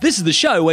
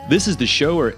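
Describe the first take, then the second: First: It is said in an Australian accent. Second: It is said in an American accent. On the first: "Okay, back" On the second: "Here, I'll do an American accent"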